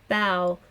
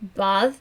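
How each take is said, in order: First: The word ends on an open vowel sound. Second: The word ends with a hard th sound. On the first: This is the modern Irish form. "in modern Irish" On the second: This is the older form of the word. "a hard th at the end"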